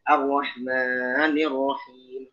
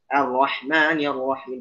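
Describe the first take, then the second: First: The long vowel is held for three or more counts. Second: The long vowel is held for only two counts. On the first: The speaker calls it wrong. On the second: The speaker calls it right.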